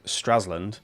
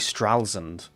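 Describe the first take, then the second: First: The name is said with English-sounding pronunciation. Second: The name is said with German-sounding pronunciation. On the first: The speaker calls it wrong. "I've been calling" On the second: The speaker calls it right. "is actually"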